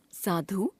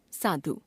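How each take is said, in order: First: साधु with a long final oo, "saadhoo"; wrong pronunciation. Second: Said in the usual way. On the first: Shown as a demonstration. Teacher showing a u-vowel error, साधु said as "saadhoo". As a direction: stretch the last vowel of साधु, rising. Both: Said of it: "अशुद्ध".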